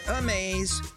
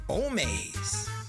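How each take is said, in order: First: The name begins with an 'ah' sound. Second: The name begins with an 'oh' sound. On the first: The speaker calls it wrong. "Not Amaze" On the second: The speaker calls it right.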